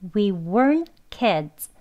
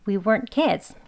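First: The sentence is said slowly. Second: The sentence is said quickly. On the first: "천천히 두 번 해볼게요" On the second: "빨리 발음해도"

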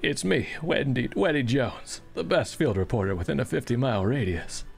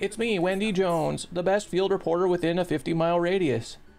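First: It is spoken in a deep put-on character voice. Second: It is spoken in the speaker's ordinary voice. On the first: The speaker calls it right. "you want me to read this with his voice?" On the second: The speaker calls it wrong. "That's not Patrick Warburton!"

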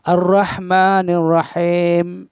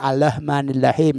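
First: The opening syllable ends in a doubled R sound. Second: The opening syllable ends in an L sound. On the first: The speaker calls it right. "itu yang benar" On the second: The speaker calls it wrong.

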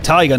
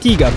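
First: The word is pronounced in a Japanese way. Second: The word is pronounced in a German way. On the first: The name refers to something Japanese. The speaker calls it right. "I'm gonna say Tiger, ... because it's Japanese" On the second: The name refers to something German. The speaker calls it wrong. "not Tiger, ... not German"

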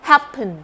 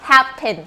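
First: The second syllable has a reduced schwa vowel. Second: The second syllable has a full clear vowel. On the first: The speaker calls it right. "เบาเป็นสระเอะในพยางค์ที่สอง" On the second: The speaker calls it wrong. "ถ้าเด็ก phonics ก็จะสะกดประมาณนี้"

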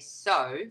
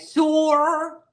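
First: It is said plainly in her own accent. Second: It is said with an exaggerated 'or' ending.

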